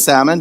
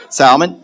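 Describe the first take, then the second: First: "salmon" with no L sound; salmon with silent L. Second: "Salmon" with the L clearly sounded. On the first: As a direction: leave the L out of "salmon". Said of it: "however you say it". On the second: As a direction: put the L back into "Salmon". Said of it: "I like putting the L in there". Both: Shown as a demonstration.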